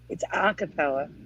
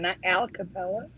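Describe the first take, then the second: First: No L sound follows the first vowel. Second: An L sound follows the first vowel. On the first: The speaker calls it right. "But it's Aca" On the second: The speaker calls it wrong. "But it's Aca, not Alcapella"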